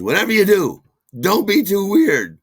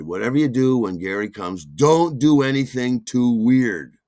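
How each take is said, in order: First: High, loud urgent warning; shrill the warning at him; high, loud Suzanne. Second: Said in the usual way. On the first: Retold or imitated. Suzanne warns the actor a second time, high and loud. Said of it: "She says". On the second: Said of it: "Suzanne said".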